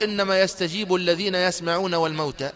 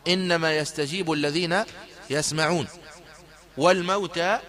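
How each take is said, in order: First: There is no pause after يسمعون. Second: There is a pause after يسمعون. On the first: The dead also hear and respond. The speaker calls it wrong. "فلو قلت ... لجعلت الموتى يسمعون ويستجيبون" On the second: Only those who hear respond; the dead are raised later. The speaker calls it right. "مثل الوقف اللازم ... وهو واجب عند كافة القراء"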